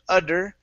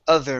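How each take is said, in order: First: The middle consonant is a D sound. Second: The middle consonant is a TH sound. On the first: The speaker calls it wrong. "instead of udder" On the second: The speaker calls it right. "good T H sound"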